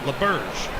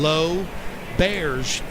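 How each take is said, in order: First: The first syllable sounds like 'luh'. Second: The first syllable sounds like 'low'. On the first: The speaker calls it wrong. "people always called it LeBears" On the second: The speaker calls it right. "the proper pronunciation"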